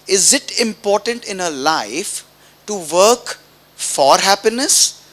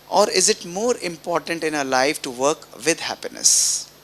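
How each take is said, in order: First: "work for happiness" drawn out slowly with a lifting, louder "for happiness"; slow and pointed, rising on "work for happiness"; questioning the audience, slowly stressing "work for happiness"; slow emphatic question. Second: Said in the usual way. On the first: Shown as a demonstration.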